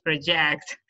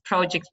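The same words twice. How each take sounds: First: "project" as the verb, pro-JECT; last-syllable stress. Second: "Project" as the noun, PRO-ject; first-syllable stress. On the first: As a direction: lean on the end of "project". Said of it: "The stress is on the last". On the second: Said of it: "on the first syllable". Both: Shown as a demonstration.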